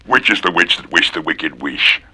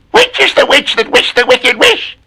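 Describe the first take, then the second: First: Soft, low witchy murmur; low witch. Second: High cackling witch tone. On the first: Witch asking softly, low and sly. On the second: Witch asking about the wish, high screechy. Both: Acted.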